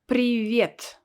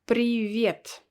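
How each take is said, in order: Both takes have the same delivery.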